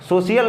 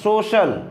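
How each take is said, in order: First: It has an extra 'ee-a' sound, three syllables. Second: It is said as two syllables, 'so-shal'. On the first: The speaker calls it wrong. "सोशियल नहीं होता" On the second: The speaker calls it right.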